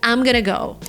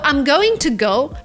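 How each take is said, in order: First: Going to is reduced and blended into gonna. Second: Going to is said fully, every sound clear. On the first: "becomes I'm gonna go"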